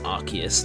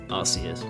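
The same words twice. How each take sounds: First: The c is said with a k sound. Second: The c is said with an s sound. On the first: The speaker calls it right. "the ability is called like R K S system, which is a confirmation that it's Arceus" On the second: The speaker calls it wrong. "not Arceus"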